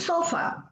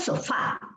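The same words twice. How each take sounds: First: The stress is on the first syllable. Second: The stress is on the last syllable. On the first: The speaker calls it wrong. "no digo" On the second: The speaker calls it right. "yo digo, ... Esta sí es aguda"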